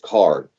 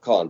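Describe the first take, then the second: First: An American accent, with a clear R sound. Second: A British accent, with no R sound. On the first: The speaker calls it right. "you have to say it with that rhotic American way" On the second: The speaker calls it wrong. "If you say it as a as a Brit, it comes out Khan"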